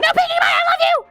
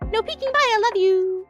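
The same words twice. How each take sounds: First: It is screamed loudly with exclamation. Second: It is said calmly, without shouting.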